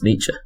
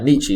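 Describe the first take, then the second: First: The name is said with its German pronunciation. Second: The name is said with an anglicized pronunciation. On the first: The speaker calls it right. "Or in the original German" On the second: The speaker calls it wrong. "is not how you pronounce it either"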